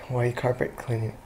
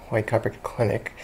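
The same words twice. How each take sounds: The two takes are said the same way.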